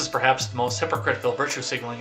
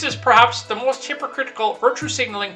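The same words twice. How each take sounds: First: It is read in the speaker's own normal voice. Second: It is read in an imitated, put-on voice. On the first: The speaker calls it wrong. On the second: The speaker calls it right.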